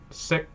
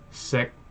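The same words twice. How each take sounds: First: The word is said on a high tone. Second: The word is said on a lower tone. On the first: It means to know. "sik is a higher tone" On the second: It means to eat. "the word for eat that we learned above is sik"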